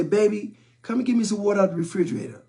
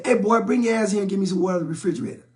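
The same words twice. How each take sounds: First: Lightly voiced mom, quick and sweet; a touch of a mother sweetly asking her kid; mom's sweet ask. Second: Lightly voiced dad barking quick orders; a hint of a stern father calling his son over; dad's gruff order. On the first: Mom on the couch asking her son for water, sweetly. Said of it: "mom would say". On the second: Dad on the couch ordering his son to bring water, gruffly. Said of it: "My dad would say".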